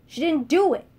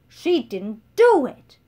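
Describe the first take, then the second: First: Higher and louder, faster than before with stress on do; insistent shout. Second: Louder, slowed, heavy fall on do; defiant shout. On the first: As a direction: fire it back at once. Beatrice repeats her defence. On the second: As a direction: hammer each word in Sophie's defence. Beatrice shouts defending Sophie. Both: Acted.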